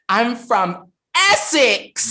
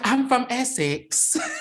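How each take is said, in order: First: The English accent imitation is strong. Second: The English accent imitation is weak. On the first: The speaker calls it right. "There you go" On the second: The speaker calls it wrong. "No, no, no. That no, no. Do it. Do it again. Do it better"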